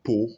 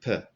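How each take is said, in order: First: The vowel is full and strong. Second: The vowel is short and weak. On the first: The speaker calls it wrong. "it's not po" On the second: The speaker calls it right. "but per"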